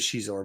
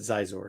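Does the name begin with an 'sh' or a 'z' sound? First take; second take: sh; z. First: The name begins with an 'sh' sound. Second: The name begins with a 'z' sound. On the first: This is the correct name. The speaker calls it right. "it is Shizor" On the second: This is how someone else said it. The speaker calls it wrong. "he pronounced it Zizor"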